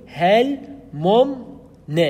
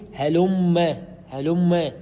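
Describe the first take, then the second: First: هل ممن very slow and higher, "hel... mum... ne"; meems pulled apart. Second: هلم as "helumm-e", holding one long m; doubled meem. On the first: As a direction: break هل ممن into separate syllables, both meems heard. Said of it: "تفك ذلك التجديد وتقول". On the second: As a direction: lean on the merged double m in هلم. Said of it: "بالتجديد". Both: Shown as a demonstration.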